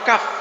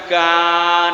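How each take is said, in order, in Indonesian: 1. Kata ini diakhiri dengan bunyi f. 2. Kata ini diakhiri dengan vokal terbuka. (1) "Jadi huruf aslinya apa? Kaf" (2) "Jadi bukan ka"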